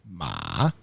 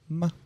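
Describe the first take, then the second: First: The pitch dips down and comes back up. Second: The syllable is short and clipped. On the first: "Third one is a check mark" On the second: "the last one is like a staccato"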